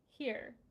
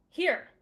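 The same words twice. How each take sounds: First: It is said plainly, without drama. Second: It is barked sharply and dramatically.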